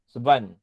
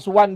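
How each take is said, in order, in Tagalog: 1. Nagsisimula ang pangalan sa tunog na V. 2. Nagsisimula ang pangalan sa tunog na W.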